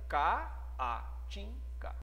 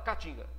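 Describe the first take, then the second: First: The two A vowels sound in separate syllables. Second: The two A vowels merge into one sound. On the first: The speaker calls it right. "Essa pronúncia te leva a separar a sílaba dessa maneira" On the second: The speaker calls it wrong. "você não fala caatinga ... É um A só"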